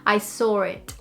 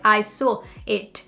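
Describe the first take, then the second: First: An R sound joins saw and it. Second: A pause separates saw and it. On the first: The speaker calls it right. "by linking saw and it with an R in the middle" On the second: The speaker calls it wrong. "if you kept that pause, it would sound like"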